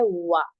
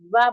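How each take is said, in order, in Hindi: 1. यह ध्वनि गोल, खुले होठों से बनती है। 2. यह ध्वनि दांत होठ से लगाकर बनती है। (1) "दोनों होठों को गोल करके ना तमाम बंद करने से" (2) "होठों को गोल नहीं करते बल्कि आप वा बोल देते हैं, यानी आप दांतों को यूज कर लेते हैं"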